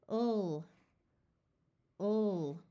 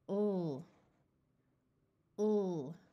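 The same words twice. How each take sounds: Both takes have the same delivery.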